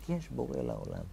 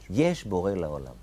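First: A much softer repeat of the words; soft echo. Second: Said in the usual way. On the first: Shown as a demonstration. Teacher echoing Abraham's cry to his students, softly. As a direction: let the cry fade into an inner echo.

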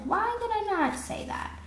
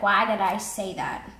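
First: High-pitched mock wondering; higher, exaggerated questioning of yourself; retold self-questioning. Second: Said in the usual way. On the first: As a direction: ask yourself in a high, put-on voice. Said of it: "or I'm like". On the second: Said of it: "sometimes I'm like".

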